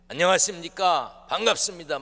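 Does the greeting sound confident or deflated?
confident. The greeting sounds confident and energetic.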